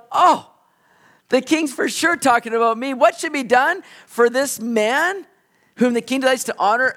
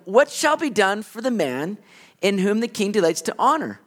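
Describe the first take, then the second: First: Higher, louder, gloating self-important voice; smug Haman. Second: Said in the usual way. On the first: Retold or imitated. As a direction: preen like a man sure the honor is his. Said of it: "He's going". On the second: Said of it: "and the king asked him".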